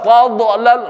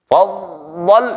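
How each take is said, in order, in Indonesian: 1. Konsonan akhirnya berakhir dengan pantulan bergema. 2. Konsonan akhirnya berhenti bersih tanpa pantulan.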